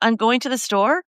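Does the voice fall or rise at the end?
rise. The pitch rises at the end. It sounds like asking for permission or approval. The speaker calls it wrong. "that implies a question"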